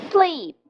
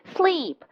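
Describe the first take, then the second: No difference in how they are said.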